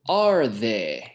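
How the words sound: The voice falls at the end.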